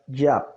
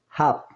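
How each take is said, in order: First: The name begins with a y sound. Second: The name begins with a throaty h sound. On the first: The speaker calls it right. "La pronunciación correcta, porque el nombre empieza por la Yod" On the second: The speaker calls it wrong. "esta pronunciación y esta escritura es incorrecta"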